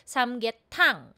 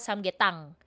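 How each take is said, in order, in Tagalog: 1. Aspirated ang t sa huling pantig. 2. Unaspirated ang t sa huling pantig. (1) "Dapat aspirated po siya. Kagaya nito" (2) "Hindi po"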